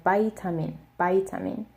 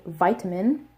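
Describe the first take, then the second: First: Vitamin as paitamin, with a p; Korean-American style vitamin. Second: Said in the usual way. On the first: Shown as a demonstration. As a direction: say vitamin with p instead of v. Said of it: "pronounced this word like". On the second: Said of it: "I say vitamin".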